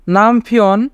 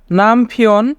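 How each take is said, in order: Both takes have the same delivery.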